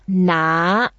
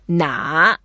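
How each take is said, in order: First: The syllable is said in the second tone. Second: The syllable is said in the third tone. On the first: It means to take something. "But the second tone" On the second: It asks which one. "哪 is the third tone"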